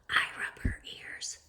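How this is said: It is said in a whisper.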